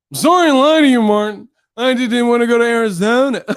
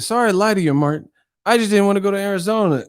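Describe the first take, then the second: First: Loud, high exaggerated kid mimicry; mocking the boy. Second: Put-on high, quick kid voice; little boy. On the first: Martin mocking the boy's apology, loud high mimicry. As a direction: parrot it back whiny, ending in a laugh. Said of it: "he would mock the people's voices". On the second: Boy apologizing to Martin, lightly voiced high child. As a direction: hurry through a childish apology. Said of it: "that little kid with them ears".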